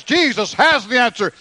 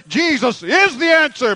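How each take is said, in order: First: Emphasis on "has" in a high preaching voice; stress on has. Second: "is" drawn out and pitched very high; slow down and punch the word "is"; stress on is. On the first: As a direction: lean on the word "has". Contrasts has with is. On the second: Corrects has to is. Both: Shown as a demonstration.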